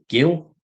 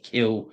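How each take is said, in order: First: The name begins with a soft G sound. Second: The name begins with a hard K sound. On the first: This is the pronunciation the name's owner preferred. The speaker calls it right. "she always wanted us to pronounce it uh, Gil" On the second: This made the name sound like an unpleasant word. The speaker calls it wrong. "we said kill, it sounded like kill"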